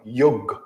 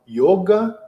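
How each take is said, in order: First: The final vowel is dropped. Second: The final vowel is pronounced. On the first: "Eles não abrem esse A no final" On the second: "Eles falam yoga"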